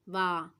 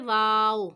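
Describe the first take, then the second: First: The name ends on a drawn-out long a. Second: The name ends with a final w consonant. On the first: This is a shortcut used when spelling out syllables. "एक अलिफ खींच के" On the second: This is the full name of the letter. "ये है वाव"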